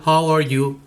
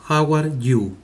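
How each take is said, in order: First: How are you with a breathy English how; English original. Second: How are you with a Spanish-sounding how; Spanish-style English. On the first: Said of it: "en inglés". (How are you como en inglés) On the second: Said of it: "lo más cercano". (How are you a la española) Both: Shown as a demonstration.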